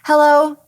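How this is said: It is said tightly at the top of the breath.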